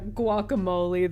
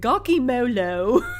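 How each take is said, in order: First: The word ends in an 'ay' sound. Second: The word ends in an 'oh' sound. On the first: The speaker calls it right. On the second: The speaker calls it wrong.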